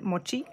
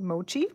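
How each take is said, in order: First: It is pronounced the Japanese way. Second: It is pronounced the English way. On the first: "we pronounce it mochi in Japan" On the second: "over here it's it's pronounced mochi"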